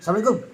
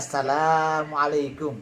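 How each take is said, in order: First: It is said abruptly, in a startling burst. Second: It is said calmly and slowly, drawn out.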